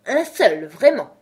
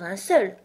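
First: Loud echo, jumping up in pitch; indignant. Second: Mild, conceding mention; humble. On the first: Dormouse taking offence at Alice's concession, indignant. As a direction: throw it back, affronted. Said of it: "s'exclama le Loir d'un ton indigné". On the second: Alice conceding one such well might exist, humble. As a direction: offer it as a modest concession. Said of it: "se faisant humble". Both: A narrator's reading.

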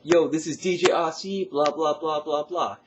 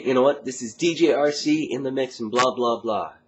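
First: Much higher, louder slangy DJ; Yo, hype it with slang; slangy dance DJ shout-out. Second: Higher, louder dance-track DJ hype; energetic dance radio DJ intro. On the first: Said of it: "if I could even try to imitate it". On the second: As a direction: hype the mix like a club DJ. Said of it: "I use this voice". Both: Shown as a demonstration.

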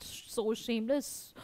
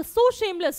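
First: Hushed, low, drawn-out murmur; soft, low scandalised aside; imitated guests' whisper. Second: Raised, higher reading of a whispered remark; voiced scandalised exclamation, not whispered; narrated guests' remark. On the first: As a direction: gossip under your breath, slowly. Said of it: "Obviously, the guests are like that". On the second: A narrator's reading. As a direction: read it out high and clear. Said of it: "The guests began to whisper".

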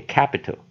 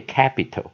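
First: Capital with the middle i passed over lightly; glossed-over middle vowel. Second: Capital with the i said as a clear "ee"; middle E sound. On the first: Teacher quotes others who read capital, gliding over the middle vowel. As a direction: say capital with a reduced, barely-there middle vowel. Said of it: "他好像只是带过去念". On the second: Teacher quotes how some people read capital, with an "ee" middle. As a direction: say capital as "cap-ee-tal". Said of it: "啊，念E". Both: Shown as a demonstration.

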